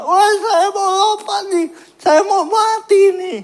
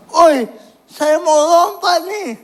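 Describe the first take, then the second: First: Very high, wailing frantic yell; shouting like a madman. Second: High, loud call across the school; shouting announcement. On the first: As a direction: scream it out like someone gone mad. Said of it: "Kayak orang gila". (berteriak histeris seperti orang gila) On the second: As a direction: yell it out to grab everyone's attention. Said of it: "cuma teriak". (teriakan mengumumkan mau lompat) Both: Retold or imitated.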